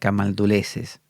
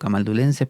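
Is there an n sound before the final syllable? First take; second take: no; yes. First: No n sound comes before the final syllable. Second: An n sound comes before the final syllable. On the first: The speaker calls it wrong. "aquí pone camalduleses" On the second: The speaker calls it right. "yo le digo camaldulenses"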